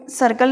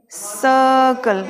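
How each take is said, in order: First: सर्कल with the R sounded; सर्कल with an audible R; wrong pronunciation. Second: सर्कल drawn out slowly with silent R; slow, R-less सर्कल; corrected pronunciation. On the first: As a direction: say सर्कल as "sar-kal", R pronounced. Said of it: "नहीं बोलेंगे हम इसे". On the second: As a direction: stretch सर्कल as "suh-kul". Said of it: "सर्कल बोलेंगे". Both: Shown as a demonstration.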